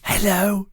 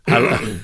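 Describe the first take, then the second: First: It is said quietly. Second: It is said at medium loudness.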